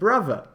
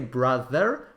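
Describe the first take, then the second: First: The middle consonant is a v sound. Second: The middle consonant is a th sound. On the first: "but brother" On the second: "they don't say brother"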